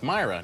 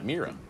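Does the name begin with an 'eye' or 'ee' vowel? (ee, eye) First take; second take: eye; ee. First: The first vowel sounds like eye. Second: The first vowel sounds like ee. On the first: The speaker calls it right. "it's pronounced Myra" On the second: The speaker calls it wrong. "not Mira"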